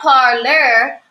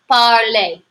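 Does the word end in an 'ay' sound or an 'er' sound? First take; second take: er; ay. First: The ending is said like English 'er'. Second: The ending is said like 'ay'. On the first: The speaker calls it wrong. "This is not parlor, which is what I might want to say because as an English speaker" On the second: The speaker calls it right. "we pronounce the er a"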